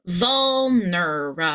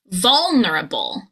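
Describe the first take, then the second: First: "vulnerable" slowed into vul-ner-uh-bull; syllable by syllable. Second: "Vulnerable" as a whole word, VUL punched and long; stress on first syllable. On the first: Coach breaks down the word for learners, slow and syllable by syllable. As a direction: stretch each syllable of "vulnerable". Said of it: "the final syllable is a consonant cluster". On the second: Coach says the whole word, stressing its first syllable. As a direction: punch VUL, run through the rest of "Vulnerable". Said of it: "you want your voice to go higher, louder, and longer".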